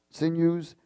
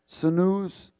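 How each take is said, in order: First: "sinews" said as SIN-yooz; y-glide pronunciation. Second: "sinews" said as suh-NOOZ; variant pronunciation. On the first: Preacher lists the six things, "sinews" as SIN-yooz. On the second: Preacher lists the six things, "sinews" as suh-NOOZ. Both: Shown as a demonstration. Tries the word two ways.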